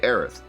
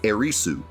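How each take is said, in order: First: The name ends in a th sound. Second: The name ends in an added su syllable. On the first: This is the common English form. "Most people are just going to say Aerith" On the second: This keeps the original Japanese form. "then you would say Erisu"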